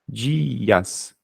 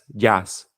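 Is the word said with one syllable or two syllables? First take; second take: two syllables; one syllable. First: The word is said as two separate syllables. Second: The word is squeezed into a single syllable. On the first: The speaker calls it right. "Di, porque é tônico, dias" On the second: The speaker calls it wrong. "Ninguém, ninguém lê jazz"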